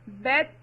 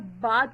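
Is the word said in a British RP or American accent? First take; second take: American; British RP. First: It has a short front 'a' vowel. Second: It has a long open 'ah' vowel.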